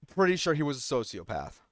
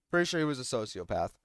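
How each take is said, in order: First: Said in the usual way. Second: Softer, dropped afterthought; quiet muttered repeat. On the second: Real, not acted. Repeating his suspicion about the boy, muttered. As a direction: say it again under the breath.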